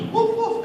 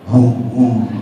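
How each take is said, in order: First: The bark is said in a high voice. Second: The bark is said in a low voice. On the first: A tiny dog is barking. "what's a tiny dog sound like?" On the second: A big dog is barking. "what's a big dog sound like?"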